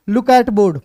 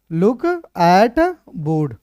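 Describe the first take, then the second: First: Said in the usual way. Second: Very slow, "look", "at", "board" set apart; word by word. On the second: Shown as a demonstration. Teacher writing out the translation for students, slow word-by-word dictation. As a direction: dictate it slowly with a gap after each word.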